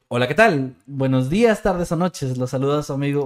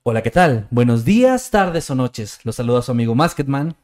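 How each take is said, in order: First: It is said in his ordinary speaking voice. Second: It is said in a put-on narrator voice.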